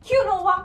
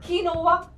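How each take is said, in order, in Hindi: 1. इसे तीन अक्षरों में कहा जाता है, kyoo-no-wah। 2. इसे तीन अक्षरों में कहा जाता है, kee-no-wah।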